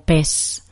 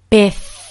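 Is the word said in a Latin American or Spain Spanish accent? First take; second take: Latin American; Spain. First: It is said in a Latin American Spanish accent. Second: It is said in a Spain Spanish accent. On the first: "En un español latinoamericano dirían más algo como pez" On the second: "En español de España decimos pez. Escucha bien el sonido"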